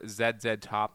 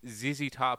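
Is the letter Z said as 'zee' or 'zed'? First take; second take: zed; zee. First: The letter Z is said as zed. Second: The letter Z is said as zee.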